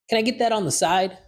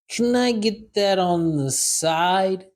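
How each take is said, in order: First: It is said at a normal conversational speed. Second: It is said slowly and deliberately. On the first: "First time, normal speed" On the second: "Second time, slow"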